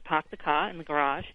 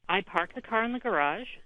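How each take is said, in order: First: It is said imitating a Boston accent. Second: It is said in her ordinary accent.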